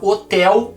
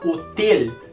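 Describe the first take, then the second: First: The E vowel is said open. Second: The E vowel is said closed. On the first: The speaker calls it wrong. "a gente não fala hotel" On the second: The speaker calls it right. "eu pronuncio hotel com a letra E fechada"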